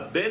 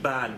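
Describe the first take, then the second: First: The word is said with an e vowel. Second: The word is said with an a vowel. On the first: The word is read as meaning son. The speaker calls it wrong. "on ne dit pas Ben" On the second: The word is read as a number, not a son. The speaker calls it right. "on dit Ban"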